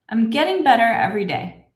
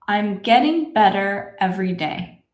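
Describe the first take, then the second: First: The sentence is spoken at medium speed. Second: The sentence is spoken very slowly. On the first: "A little faster" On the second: "Let's say this together slowly"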